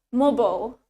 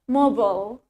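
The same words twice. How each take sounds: First: The word is said in an American accent. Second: The word is said in an American accent.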